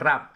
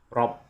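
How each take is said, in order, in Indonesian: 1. Vokalnya tipis dan ringan. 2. Vokalnya berat dan tebal. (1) "Jangan rab tapi tebal" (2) "tapi tebal"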